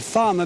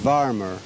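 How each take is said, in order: First: The word begins with an f sound. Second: The word begins with a v sound.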